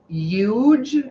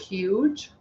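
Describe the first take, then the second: First: It is said with a foreign-sounding pronunciation. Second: It is said with standard English pronunciation. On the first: This is how a relative used to say it. "She says huge" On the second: This is the usual way to say it. "instead of"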